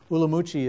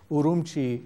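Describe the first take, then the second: First: The name is pronounced the Chinese way. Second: The name is pronounced the Uyghur way. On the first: "Ulamuchi is the Chinese way" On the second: "Urumqi is the Uyghur way of pronouncing it"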